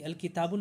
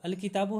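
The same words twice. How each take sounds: First: किताबुन with an added -un ending; wrong tanween. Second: किताबो ending in a short open u, no n; no tanween. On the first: Teacher shows students what not to say after alif lam, किताबुन with tanween. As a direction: close किताबुन on a sounded n. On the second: Teacher shows students the correct noun after alif lam, किताबो without tanween. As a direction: say किताबो without any final n sound. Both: Shown as a demonstration. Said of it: "अल किताबुन नहीं बोलेंगे".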